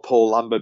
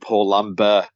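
First: The name is said with plain English pronunciation. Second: The name is said with exaggerated foreign pronunciation.

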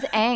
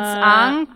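First: The name is said with English pronunciation. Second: The name is said with German pronunciation. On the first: "when I first heard the names in English" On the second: "What was the German? It's Aang"

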